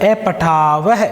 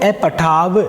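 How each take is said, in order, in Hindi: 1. शब्द का अंत साँस वाली 'h' ध्वनि से होता है। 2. शब्द बिना साँस वाली 'h' के साफ़ तरीके से खत्म होता है। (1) "अगर ये ये होता विसर्ग" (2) "अगर विसर्ग नहीं है तो अपठाव"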